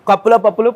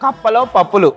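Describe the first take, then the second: First: The phrase is said quickly, in rapid repetition. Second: The phrase is said at an ordinary, slower pace.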